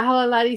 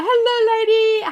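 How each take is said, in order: First: Said in the usual way. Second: High, bright chat-greeting voice, much higher; sing-song greeting. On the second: Pretend. Greeting a viewer from chat in a high sing-song. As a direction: lilt the hello up high.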